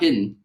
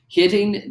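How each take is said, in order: First: The middle t is softened into a d. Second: The middle t is crisp and clearly articulated. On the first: The speaker calls it wrong. "and not hidden" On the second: The speaker calls it right. "hitting the end of the words"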